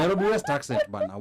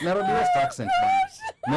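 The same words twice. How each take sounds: First: Nairobi West accent, a little higher, no shout; toned-down Nairobi West accent. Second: Shouted high and loud Nairobi West accent, laughing through it; hammed-up Nairobi West accent. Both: Shown as a demonstration. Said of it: "I'm trying to be authentic".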